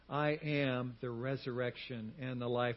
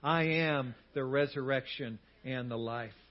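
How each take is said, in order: First: It is said in a calm, ordinary way. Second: It is said loudly, with strong conviction. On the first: "Say that with me" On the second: "Now like you mean it"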